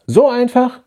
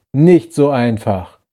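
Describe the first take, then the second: First: So einfach? rising steeply in disbelief; incredulous. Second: Nicht so einfach slow, nicht hit hard, falling; stress on nicht. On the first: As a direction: throw So einfach? back at him, much higher. Incredulous question, contrasted. (ungläubig, So einfach? stark steigend) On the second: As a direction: drag out nicht so einfach, firm. Slow stressed answer to own question. (Betonung auf nicht, langsam und fallend) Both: A narrator's reading.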